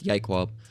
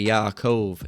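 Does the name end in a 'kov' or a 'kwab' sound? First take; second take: kwab; kov. First: The name ends with a 'kwab' sound. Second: The name ends with a 'kov' sound. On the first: This is claimed as the true original name. The speaker calls it right. "It's Yaikwab" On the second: This is how others commonly say the name. The speaker calls it wrong. "they say Yaakov. It's not"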